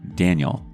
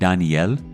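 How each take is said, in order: First: It is said the English way, stressing the start. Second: It is said the Spanish way, stressing the N. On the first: "like I imagined" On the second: "the Spanish pronunciation of his name, with an emphasis on the N"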